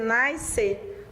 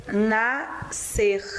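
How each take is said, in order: First: Nascer with the S sounded out, like nais-cer; wrong pronunciation. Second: Nascer said na-ser, the SC as one S sound; correct pronunciation. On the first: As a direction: say nascer pronouncing both the S and the C. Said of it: "você não pode dizer nascer". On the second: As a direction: say nascer with a single S sound, no extra S. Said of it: "você tem que dizer nascer". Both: Shown as a demonstration.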